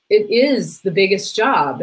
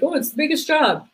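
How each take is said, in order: First: "is" stressed slowly, falling; sincere emphasis on is. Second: A hint of mocking people, higher; mocking cliché. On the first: Real, not acted. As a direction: lean on "is" with conviction. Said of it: "No, it really is". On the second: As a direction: lightly mimic a tired cliché. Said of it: "people are like".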